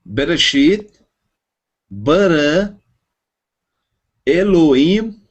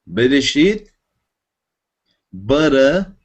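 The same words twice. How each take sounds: First: Bereshit, bara, Elohim, each word rising and higher; reading Hebrew aloud. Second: Bereshit with Israeli r, Israeli accent; Israeli pronunciation. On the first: Student asks teacher to read the verse, careful reading. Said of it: "lê pra nós todo o Bereshit". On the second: Teacher switching to Israeli Hebrew pronunciation for class. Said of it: "vamos usar a pronúncia israelense". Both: Shown as a demonstration.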